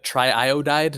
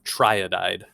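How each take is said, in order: First: Two separate i vowel sounds follow the tri. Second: The i sounds merge into a single vowel. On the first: The speaker calls it right. "it is the correct way to say it" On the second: The speaker calls it wrong. "It's not triodide"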